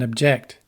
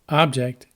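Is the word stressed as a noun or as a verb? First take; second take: verb; noun. First: The stress falls where the verb puts it. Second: The stress falls where the noun puts it. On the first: It names an action. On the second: It names a thing.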